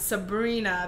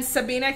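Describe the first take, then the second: First: "Sabrina" with the R restored, sa-BREE-na; corrected Sabrina. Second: "Sabina" said without the R, sa-BEE-na; wrong name Sabina. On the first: Apologizing to the viewer, carefully saying "Sabrina" with R. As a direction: carefully put the R back in "Sabrina". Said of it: "Forgive me for leaving your R out". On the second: Misreading the viewer's name, saying "Sabina" without R. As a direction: drop the R in "Sabina" by mistake. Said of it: "I've been saying Sabina". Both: Real, not acted.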